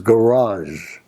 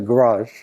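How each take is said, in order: First: The word's ending is fully pronounced. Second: The word's ending is clipped or dropped. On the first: The speaker calls it right. "I pronounced it garage with the ending on it" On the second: The speaker calls it wrong. "He doesn't say garage"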